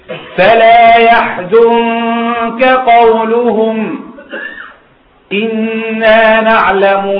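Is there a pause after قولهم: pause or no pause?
pause. There is a pause after قولهم. The knowing is a separate statement, not what they said. The speaker calls it right.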